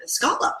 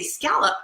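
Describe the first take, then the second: First: "scallop" with an open o, SKOL-up; Maritimes pronunciation. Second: "scallop" with the a of "pal", SKAL-up; old pronunciation. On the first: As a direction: say "scallop" rhyming with dollop. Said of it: "then I moved to the Maritimes". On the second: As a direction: say "scallop" rhyming with gallop. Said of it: "I used to say scallop". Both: Shown as a demonstration.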